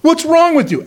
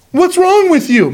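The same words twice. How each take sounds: First: Mocking retold curse. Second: Slow, higher, sneering challenge; mocking God. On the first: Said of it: "And he's cursing". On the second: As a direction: taunt the sky, drawn out and up. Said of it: "mocking God".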